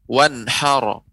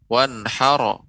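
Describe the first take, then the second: Both takes have the same delivery.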